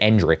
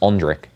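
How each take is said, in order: First: The name begins with an 'en' sound. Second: The name begins with an 'on' sound. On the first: The speaker calls it wrong. "You don't say Endrick" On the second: The speaker calls it right. "it's Ondrick. That's actually how you say his name"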